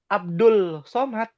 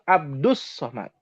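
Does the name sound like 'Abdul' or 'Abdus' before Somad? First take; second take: Abdul; Abdus. First: The article is pronounced with a clear l sound. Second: The article's l merges into the following s. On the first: The speaker calls it wrong. "Orang Indonesia ada yang bilang Abdul Somad" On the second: The speaker calls it right. "Yang betul Abdus Somad"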